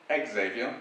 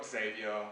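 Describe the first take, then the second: First: Xavier drawn out slowly as ek-ZAY-vyuh; slow, odd ek-ZAY-vyuh; outlandish pronunciation. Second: Xavier said as SAY-vee-uh, an S at the start; the mispronunciation SAY-vee-uh; wrong pronunciation. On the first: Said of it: "some that are a bit more outlandish". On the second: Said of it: "attempts and pronunciations of that, and most of them are wrong". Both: Shown as a demonstration.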